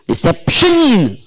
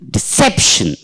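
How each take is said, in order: First: The stress falls on the last syllable. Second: The stress falls before the last syllable. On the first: The speaker calls it wrong. "if you have written stress here, say here shun ... How do we pronounce this?" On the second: The speaker calls it right. "So therefore"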